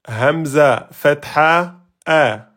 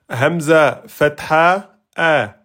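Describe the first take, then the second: No difference in how they are said.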